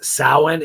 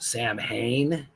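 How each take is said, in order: First: It is not said as 'Sam Hain'. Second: It is said as 'Sam Hain', h sounded. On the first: The speaker calls it right. "it's actually a uh, Gaelic ancient pronunciation" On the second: The speaker calls it wrong. "It looks like it's pronounced Sam Hain"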